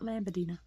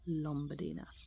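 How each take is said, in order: First: The first syllable is said like 'lam'. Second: The first syllable is said like 'lom'. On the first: The speaker calls it wrong. "Not Lambardina" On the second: The speaker calls it right. "It's actually Lombardina"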